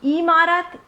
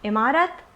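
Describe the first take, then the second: First: The first vowel is drawn out long. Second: The first vowel is said short and quick. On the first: The speaker calls it wrong. "इसको हम इमारत, इमली और स्त्री नहीं बोलते" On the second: The speaker calls it right. "इसको हम इमारत, इमली और स्त्री बोलते हैं"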